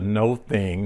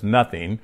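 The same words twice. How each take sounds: First: "No thing" as two separate words; split pronunciation. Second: Said in the usual way. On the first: Shown as a demonstration. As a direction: say "No thing" with a long O, then a distinct "thing". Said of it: "we read it as nothing, but it says, "No thing". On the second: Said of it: "we read it as nothing".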